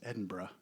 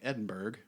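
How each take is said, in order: First: The ending is reduced to a short bruh. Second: The ending is said as spelled, like burg. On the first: The speaker calls it right. "but it's Edinburgh, bruh" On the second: The speaker calls it wrong. "it reads like Edinburgh"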